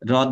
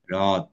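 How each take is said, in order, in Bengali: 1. h ধ্বনিটি ছোট আর সাধারণ। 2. h ধ্বনিটি টেনে বলা হয় আর শ্বাসযুক্ত। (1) "হ্রদ নয়, নর্মাল হ্রদ নয়" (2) "এরকম টেনে যাবে হটা, ... ঘোষত্ব এবং মহাপ্রাণতা নিয়ে আসতে হবে"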